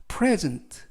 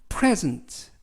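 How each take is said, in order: No difference in how they are said.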